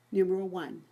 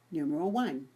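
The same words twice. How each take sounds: The two takes are said the same way.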